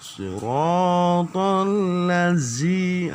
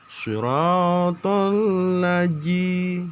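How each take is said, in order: First: The consonant in ladzi sounds like a z. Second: The consonant in ladzi sounds like a j. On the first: "itu sudah masuk ke z" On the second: "ini sudah jim"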